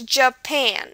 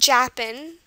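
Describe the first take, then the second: First: The stress is on the second syllable. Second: The stress is on the first syllable. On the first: The speaker calls it right. "it stresses on the pan part of it" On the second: The speaker calls it wrong. "It's not Japan, which is what it might look like"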